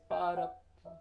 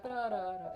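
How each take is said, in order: First: Pa ra pa joined smoothly in one breath; teacher showing the right articulation; slurred syllables. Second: Ta ra ra separated, each syllable struck; teacher showing the wrong articulation; detached syllables. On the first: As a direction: connect pa ra pa legato. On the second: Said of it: "it's actually not". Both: Shown as a demonstration.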